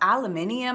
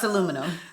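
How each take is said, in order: First: It is said with a British pronunciation. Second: It is said with an American pronunciation. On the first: The speaker calls it wrong. "I don't say that because that one I think is weird" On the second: The speaker calls it right. "It's aluminum"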